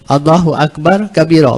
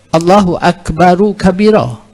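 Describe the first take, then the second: First: Akbar ends on r with no linking vowel. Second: Akbar takes an added u linking to kabira. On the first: It is read as if pausing after Akbar. The speaker calls it wrong. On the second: It is read connected without pausing. The speaker calls it right. "tapi kita wasal ya"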